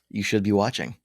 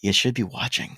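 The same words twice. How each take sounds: First: It sounds only lightly judgmental and half-hearted. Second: It sounds strongly and comically judgmental. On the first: The speaker calls it wrong. "I should have committed" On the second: The speaker calls it right. "for the sake of being extra judgy"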